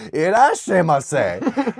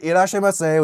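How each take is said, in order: First: Put-on slow, high, drawn-out American-accented Japanese; foreigner's bad Japanese. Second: Lightly imitated shop clerk's formal greeting; higher-pitched imitation of a formal welcome; a hint of a formal Japanese clerk. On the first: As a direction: imitate a foreigner slowly mangling Japanese. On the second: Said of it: "they're all, like, formal and shit".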